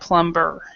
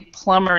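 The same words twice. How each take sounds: First: The b sound is clearly pronounced. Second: The b sound is not pronounced. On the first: The speaker calls it wrong. "instead of plumber" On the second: The speaker calls it right. "this B is silent, so we would say plumber"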